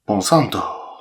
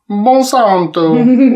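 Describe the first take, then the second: First: The name is said in an Italian accent. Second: The name is said in a Spanish accent.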